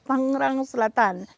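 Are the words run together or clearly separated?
run together. The two words are run together without separation. The speaker calls it wrong. "We don't say Tangerang Selatan"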